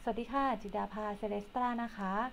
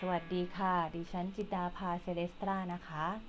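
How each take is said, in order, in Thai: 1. เสียงอยู่ที่ระดับกลางที่ฟังสบาย 2. เสียงอยู่ที่ระดับต่ำมาก (1) "ก็คือจะอยู่โทนเสียงนี้นะคะ" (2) "ต่ำอย่างนี้คือต่ำนะคะ"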